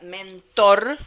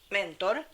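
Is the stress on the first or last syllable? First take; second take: last; first. First: The stress is on the last syllable. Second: The stress is on the first syllable. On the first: This is the modern form of the word. "la palabra ahora es aguda" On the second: This is the original form of the name. "el nombre original era mentor, ¿eh? Con acento, así"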